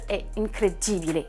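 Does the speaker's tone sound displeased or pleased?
displeased. The tone sounds displeased and dismayed. Something is bad. "c'est pas du tout bon"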